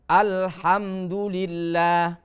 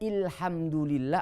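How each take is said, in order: First: The word begins with the vowel a. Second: The word begins with the vowel i. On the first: The speaker calls it right. "setiap kalimat al pasti hamzahnya dengan fathah" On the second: The speaker calls it wrong. "Tidak boleh"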